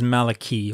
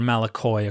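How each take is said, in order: First: The word ends with an 'ee' sound. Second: The word ends with an 'oy' sound.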